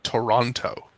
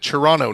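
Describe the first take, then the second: First: The second T is clearly pronounced. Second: The second T is dropped. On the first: The speaker calls it wrong. "That extra T does not exist" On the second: The speaker calls it right. "It's it's like how you pronounce it"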